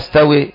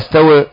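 First: The final vowel leans strongly toward 'e'. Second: The final vowel leans only slightly toward 'e'. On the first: "أمالها" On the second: "أو قللها"

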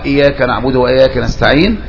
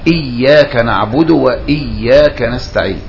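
First: The y sound in iyyaka is short and single. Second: The y sound in iyyaka is held and doubled. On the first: It means worshipping the sun. The speaker calls it wrong. "وخففها" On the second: It means worshipping God alone. The speaker calls it right. "يعني يشدد الياء"

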